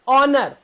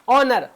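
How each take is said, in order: The two takes are said the same way.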